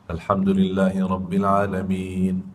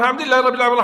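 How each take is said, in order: First: It is recited slowly and unhurriedly. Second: It is recited fast, all in one breath.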